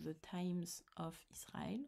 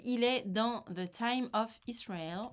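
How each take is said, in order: First: Whispered "The Times of Israel" in a jokey English accent; mock English accent. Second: Said in the usual way. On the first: Shown as a demonstration. Vlogger jokingly whispers the title in her English accent. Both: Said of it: "avec mon super accent".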